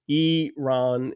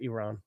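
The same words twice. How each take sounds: First: The first syllable sounds like 'ear'. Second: The first syllable does not sound like 'ear'. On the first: "E A R. That makes it Iran" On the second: "I pronounce it Iran"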